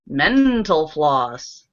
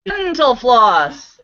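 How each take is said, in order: First: Mental slow and stressed. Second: Mental repeated slowly and louder; stress on Mental. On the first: Teacher landing the mental floss pun slowly. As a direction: lean on mental, the punchline. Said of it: "not dental floss, but". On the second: Teacher repeating Mental floss slowly for emphasis. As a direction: hit Mental firmly. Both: Shown as a demonstration.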